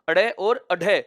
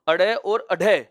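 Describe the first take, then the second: No difference in how they are said.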